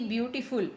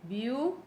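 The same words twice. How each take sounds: First: Said in the usual way. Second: ब्यूटीफुल broken into three syllables with long pauses. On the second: Shown as a demonstration. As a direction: count out ब्यू, टी, फुल separately. (ब्यूटीफुल को तीन syllable में तोड़कर, रुक-रुक कर) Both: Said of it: "ब्यूटीफुल में कितने syllable आए".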